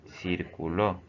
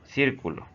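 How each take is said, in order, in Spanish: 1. El acento está en la sílaba del medio. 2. El acento está en la primera sílaba. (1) "Es andar o moverse de un lado a otro siguiendo una dirección" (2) "Esta es una figura geométrica delimitada por una circunferencia"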